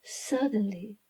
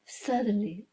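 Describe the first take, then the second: No difference in how they are said.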